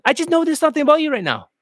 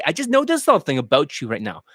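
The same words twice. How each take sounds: First: Higher, quicker, lifted on "I just noticed something"; tonality not dropping. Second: Said in the usual way. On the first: Shown as a demonstration. Dating coach correcting the tone, "I just noticed" raised and fast. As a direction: keep "noticed something about you" up high and brisk. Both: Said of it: "Don't go down".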